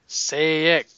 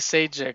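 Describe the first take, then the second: First: The middle consonant is a Y sound. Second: The middle consonant is a J sound. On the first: The speaker calls it right. "the J is a Y" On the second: The speaker calls it wrong. "I always say Sajic, but it's probably not right"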